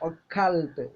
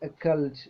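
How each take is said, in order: First: The word is said with strong force. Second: The word is said lightly and simply. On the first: The speaker calls it wrong. "നമ്മൾ ഉച്ചരിക്കും occult നല്ല ശക്തിയിൽ" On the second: The speaker calls it right. "വളരെ simple ആയിട്ട് ഉച്ചരിച്ചാൽ മതി"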